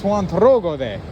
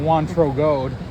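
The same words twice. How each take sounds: First: The name is said with a put-on foreign accent. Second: The name is said plainly, without an accent. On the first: The speaker calls it right. "I added the accent" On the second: The speaker calls it wrong. "it's definitely not"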